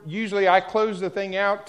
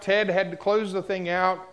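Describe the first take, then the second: First: "I" leaned on as the usual closer; weight on "I"; stress on I. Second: "Ted" pushed forward against "I"; stress on Ted. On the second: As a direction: hit "Ted" hard. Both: Real, not acted. Contrast I versus Ted.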